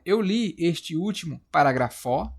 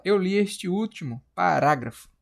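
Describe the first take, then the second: First: "parágrafo" said as paragra-FÓ with open o, rising; stress on final FO. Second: "parágrafo" as pa-RÁ-grafo with a falling end; stress on RA. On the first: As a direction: put the stress on the last syllable of "parágrafo". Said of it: "Agora você vai falar, pronunciar". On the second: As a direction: stress the second syllable of "parágrafo", ending firmly. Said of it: "Ou você fala". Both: Shown as a demonstration.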